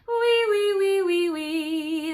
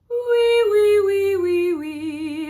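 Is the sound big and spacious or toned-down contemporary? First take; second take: contemporary; spacious. First: The sound is toned down and contemporary. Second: The sound is big and spacious, like yawning.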